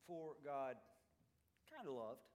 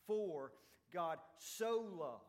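First: Understated, lower on "kinda loved"; half-hearted version of a big declaration; lukewarm. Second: FOR and SO punched loud, spaced out slowly; slow, weighty stress on "so", each word set apart; emphatic. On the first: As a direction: toss off "kinda" with no weight. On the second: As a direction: declare it slowly, leaning hard on "so". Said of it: "emphasis of the intensity of God's love". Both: Shown as a demonstration.

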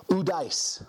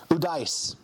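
First: "udais" said as oo-DICE, stress on the second syllable; pronounced udais. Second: "Udais" repeated as oo-DICE, same careful stress on DICE; pronounced udais. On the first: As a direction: say "udais" slowly and clearly, oo-DICE. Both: Shown as a demonstration. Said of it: "It's pronounced".

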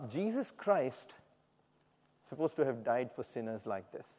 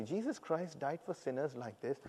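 First: Understated sarcasm with a long pause; sarcastic. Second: Soft, understated retelling, quietly moved; hushed, touched restatement. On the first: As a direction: draw out the name, then drop away quietly. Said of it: "almost in a sarcastic way". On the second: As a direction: say it softly in one go, taking it in. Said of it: "but it moved me". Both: Retold or imitated.

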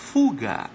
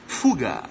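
First: Fuga again, low and slow; repeated emphasis. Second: Fuga said low, falling, heavy; stress on fuga. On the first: (Fuga repetido, grave) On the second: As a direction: drop Fuga like a verdict. (Fuga dito grave e seco) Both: Shown as a demonstration. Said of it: "sabe qual é o nome disso?".

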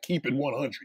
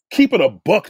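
First: Much softer, stiff and square; corny mocking quote. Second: Lively, punchy slang delivery; with pizzazz. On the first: Host mocking a corny caller's slang, soft stiff imitation. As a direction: mimic an older man trying to be young, under your breath. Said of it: "who the fuck even talks like that?". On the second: Shown as a demonstration. Host showing a corny caller the cooler phrase, with pizzazz. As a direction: say it with a bit of swagger and zip. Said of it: "little pizzazz in it".

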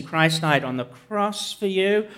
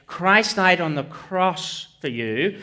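First: Slow but half-hearted declaration; less convincing. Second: Slow, heartfelt declaration with weight on the words; genuinely convincing. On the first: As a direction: say it as if it doesn't quite land. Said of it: "a lot less convincing". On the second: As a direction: preach it sincerely, slowly. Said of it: "enables me to genuinely say". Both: Shown as a demonstration.

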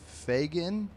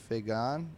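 First: Fagan with a weak second syllable, FAY-gun, rising; trying a pronunciation. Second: Fagan with a full second vowel, fay-GAHN; alternative pronunciation. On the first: Host unsure of the cartoonist's name, trying FAY-gun for Fagan. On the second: Host trying the cartoonist's name another way, fay-GAHN for Fagan. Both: Shown as a demonstration. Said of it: "we'll bleep the name just in case".

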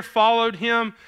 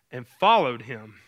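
First: Followed lifted and held on its first syllable; stress on Followed. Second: Followed him, lands low and falls; stress on followed. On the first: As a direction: repeat Followed with clear weight up front. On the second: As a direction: lean into followed, then drop the pitch. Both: Shown as a demonstration. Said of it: "there's some emphasis on some words there".

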